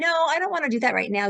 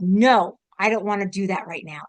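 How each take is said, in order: First: It is said in a lighter, higher voice. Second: It is said in a deeper, lower voice. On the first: "instead of saying" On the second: "a different voice that you use. ... comes from a lower part of like, you know, like your solar plexus"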